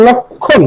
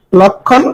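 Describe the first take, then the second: First: "লক্ষণ" split lok-khon, falling at the end; pronunciation demo. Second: Said in the usual way. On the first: Shown as a demonstration. Teacher reviewing for students, "লক্ষণ" pronounced carefully as lok-khon. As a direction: hold the k in "লক্ষণ" before khon. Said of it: "লক্ষণকে যেরকম উচ্চারণ করি". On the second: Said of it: "তাহলে আরেকবার দেখি".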